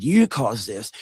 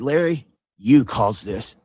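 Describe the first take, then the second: First: Said in the usual way. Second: Slow, with "you" weighed down; slow accusation. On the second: Retold or imitated. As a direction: lay the blame on "you", deliberately. Confronting Larry, first pushback.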